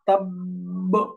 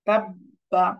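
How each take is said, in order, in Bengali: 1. শব্দটি একটি জোরালো ঝাঁকুনিযুক্ত স্পর্শবর্ণ দিয়ে শেষ হয়। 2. শব্দটি একটি পূর্ণ শেষ স্বরধ্বনি দিয়ে শেষ হয়। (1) "ওয়াকফ করলে" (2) "নরমাল"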